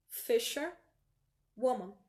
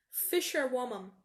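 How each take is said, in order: First: Fisherwoman said very slowly; very slow model pronunciation. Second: Fisherwoman said slowly and clearly; slow model pronunciation. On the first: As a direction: Fisherwoman stretched syllable by syllable. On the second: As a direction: fisherwoman drawn out. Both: Shown as a demonstration. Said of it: "terminou com man, bota um woman".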